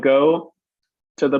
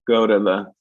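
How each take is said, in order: First: The t in 'to' is a full t. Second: The t in 'to' is a quick tap.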